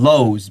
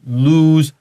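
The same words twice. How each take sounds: First: The vowel is a long o as in go. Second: The vowel is an oo as in moon. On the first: The speaker calls it wrong. "students they always say lose because 有 o 然后字幕然后 e 这个应该是长 o 的" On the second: The speaker calls it right. "this is lose 那个双 o like the moon"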